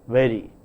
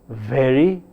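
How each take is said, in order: First: The v is a smooth approximant without friction. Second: The v is a fricative with lip-teeth friction.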